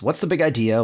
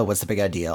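First: Lightly indignant challenge; quick mock protest; mild retold yell. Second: Lower, level echo; lightly imitated echoing spring; spring's echo. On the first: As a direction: challenge it without really yelling. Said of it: "Donald kinda yelling at the spring". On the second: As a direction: parrot it back deadpan. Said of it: "the echo of his voice".

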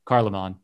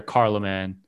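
First: Carloman with a hard K and open "ah" ending; local pronunciation. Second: Carloman with a hard K and flat final "man"; local pronunciation. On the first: Host correcting Charlemagne's local name, open-vowel pronunciation. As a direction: say Carloman as KAR-luh-mahn, low. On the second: Host giving Charlemagne's local name, first attempt at pronunciation. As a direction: say Carloman as KAR-luh-man, low. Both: Shown as a demonstration. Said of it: "as they would say there".

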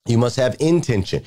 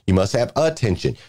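First: "intention" with its first syllable picked out; stress on IN-tention. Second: "attention" with its first syllable picked out; stress on A-ttention. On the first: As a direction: punch the "in" of "intention". Contrasts intention with attention. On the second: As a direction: punch the "a" of "attention". Contrasts attention with intention. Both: Shown as a demonstration.

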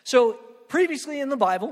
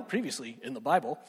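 First: Said in the usual way. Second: Lower, softer announcer read of previously; low mock recap narrator. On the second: Shown as a demonstration. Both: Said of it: "I sound like a T V guy".

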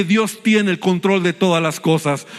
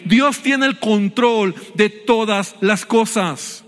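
First: Said in the usual way. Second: Slow, measured stress on "Dios tiene el control de todas las cosas"; slow emphatic repeat. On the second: Real, not acted. Preacher to congregation after asking for amen, "todas las cosas" slow and emphatic.

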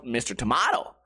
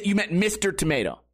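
First: "Tomato" said tuh-MAH-toh, rising; broad-A pronunciation. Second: "Tomato" said tuh-MAY-toh; long-A pronunciation. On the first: Comic needling the kid, "Tomato" as tuh-MAH-toh, questioning. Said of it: "and I call it tomato". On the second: Comic doubting the kid's tale, "Tomato" as tuh-MAY-toh. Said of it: "he calls it tomato". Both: Retold or imitated.

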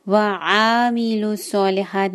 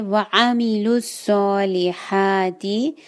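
First: वआमिलुस्सॉलिहात with the ain dragged; wrong stretched ain. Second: Slow वआमिलुस्सॉलिहाती, ain not stretched; correct short ain. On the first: Teacher imitating the mistake. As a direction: drag the ain. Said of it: "नहीं है". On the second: Teacher models the correct word. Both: Shown as a demonstration.

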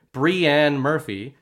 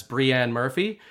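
First: "Brianne Murphy" stretched out very slowly and louder; mock-correct "Brianne Murphy", drawn right out; careful correct version. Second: "Brianne Murphy" said the usual way, read off the message; "Brianne Murphy" in an ordinary reading pace; plain reading of "Brianne Murphy"; read as written. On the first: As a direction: spell out "Brianne Murphy" slowly, each syllable loud. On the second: Retold or imitated. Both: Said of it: "correctly say it".

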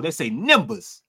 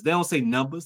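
First: "numbers" with a nasal vowel, like "nimbers"; Florida way of saying. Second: Said in the usual way. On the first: Shown as a demonstration. Showing his friend how Florida folks say it, "numbers" as "nimbers". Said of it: "That's how they say in Florida".

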